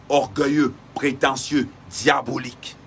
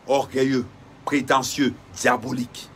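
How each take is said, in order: Both takes have the same delivery.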